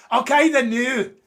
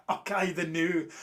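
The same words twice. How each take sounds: First: "Okay, the new" in a hammed-up Scottish accent, higher, louder, slow; a clumsy Scottish accent for Debbie, drawn out and loud; bad Scottish accent. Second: Said in the usual way. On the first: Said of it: "That's a terrible impression". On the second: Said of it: "How's that, Debbie?".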